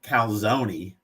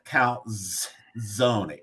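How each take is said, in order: First: The z is said as a plain z sound. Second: The z is said like a ts sound. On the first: The speaker calls it wrong. "It's not calzone" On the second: The speaker calls it right. "It's calzone. It's T"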